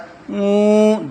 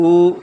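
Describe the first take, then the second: First: The vowel is long, held for two beats, louder. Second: The vowel is short, held for one beat. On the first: "फिर थोड़ा और जोर से बोलता है उ, दो मात्रा में" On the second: "पहले एक मात्रा हर्ष से बोलता है"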